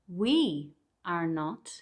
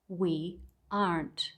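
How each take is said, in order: First: Each word is said separately, in full. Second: The last two words are merged into one syllable.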